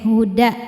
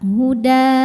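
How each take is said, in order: First: The final vowel is cut short. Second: The final vowel is held long. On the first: The reader continues into the next word. "saat diwasolkan dalnya ini pendek" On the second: The reader stops after this word. "Maka dalnya ini panjang dua harokat"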